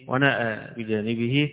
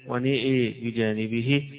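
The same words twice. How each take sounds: First: The long a is fully open. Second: The long a leans strongly toward e. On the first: "بالتقليل والفتح والتقليل" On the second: "بإمالة النون وبإمالة الهمزة أيضا"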